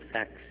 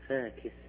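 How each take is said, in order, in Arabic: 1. يشكّل k و s توالي ساكنين. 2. يفصل بين k و s صائت. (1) "ما يقول فاكس" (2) "ما عنده شيء اسمه توالي ساكنين"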